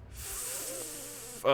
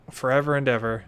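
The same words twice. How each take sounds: First: Slow drawn-out ghostly whisper; eerie whisper. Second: Said in the usual way. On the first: Acted. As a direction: breathe it out slow and haunting. Creepy whispered echo.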